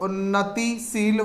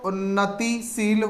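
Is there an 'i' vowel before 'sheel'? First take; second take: yes; yes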